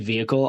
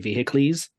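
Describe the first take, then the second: First: It is pronounced the ordinary everyday English way. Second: It is pronounced in an odd Latin-like way. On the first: "I won't say vehicle" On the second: "pronouncing words like Latin or Greek"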